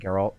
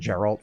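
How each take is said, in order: First: The G is hard, like in go. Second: The G is soft, like a J sound. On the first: "instead of hard G's" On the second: "I always turn G's into soft G's"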